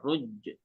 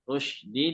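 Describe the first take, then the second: First: The middle consonant is a j sound. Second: The middle consonant is a sh sound. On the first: The speaker calls it wrong. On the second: The speaker calls it right.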